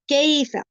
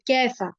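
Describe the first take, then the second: First: The first syllable glides softly, the Arabic way. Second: The first syllable is said the Urdu way. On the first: The speaker calls it right. "याद रखिए इसको कैफा नहीं बोलना, कईफा" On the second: The speaker calls it wrong. "Urdu की तरह कैफा पढ़ देती है"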